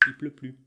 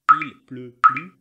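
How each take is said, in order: First: "il pleut plus" as i pleut plus, L gone, softer; dropped L. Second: "Il pleut plus" with the L of "Il" clearly sounded, louder; full il. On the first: Teacher showing learners everyday speech, il clipped to i. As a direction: drop the L of "il" as the French do, quietly. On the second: Teacher showing learners the careful form, full il louder. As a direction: say every letter of "Il" carefully. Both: Shown as a demonstration. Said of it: "On entend souvent les Français dire".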